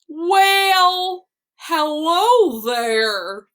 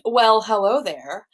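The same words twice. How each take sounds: First: It is said in a silly put-on character voice. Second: It is said in her ordinary speaking voice. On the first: "I'm a whale, and I like to say" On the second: "instead of saying"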